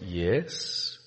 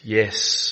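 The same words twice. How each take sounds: First: The yes sounds hesitant and reluctant. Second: The yes sounds plain and confident. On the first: The speaker is not really meditating. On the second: The speaker is meditating.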